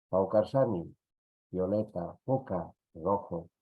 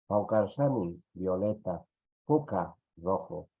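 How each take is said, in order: Both takes have the same delivery.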